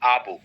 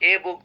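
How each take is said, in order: First: The article is said as a short 'uh'. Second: The article is said as a full 'ay'. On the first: The speaker calls it right. "বলবো আ বুক" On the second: The speaker calls it wrong. "বলবো না"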